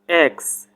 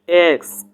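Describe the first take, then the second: First: It is said in an American accent. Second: It is said in an American accent.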